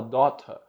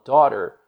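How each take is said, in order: First: "daughter" read the Portuguese way, like dɔtɐ with a flat final a; wrong pronunciation. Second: "daughter" with a flapped middle, like dɔɾer; right pronunciation. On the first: Teacher showing students the wrong reading, "daughter" as dɔtɐ. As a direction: spell it out the way a Brazilian reads it, "daughter" as dɔtɐ. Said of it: "você vai aprender que, se você fala daughter". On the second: Teacher showing students the right sound, "daughter" flapped. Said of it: "você fala daughter". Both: Shown as a demonstration.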